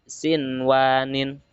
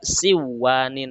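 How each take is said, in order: First: The n sound is pronounced clearly. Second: The n sound is merged away. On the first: The speaker calls it right. "harus dibaca jelas" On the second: The speaker calls it wrong. "Tidak boleh dibaca"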